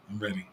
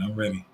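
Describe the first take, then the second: First: Ready repeated much softer, to himself; soft echo. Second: Said in the usual way. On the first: Real, not acted. Streamer telling chat he wants kids, softly repeated. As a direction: say it again quietly, meaning it.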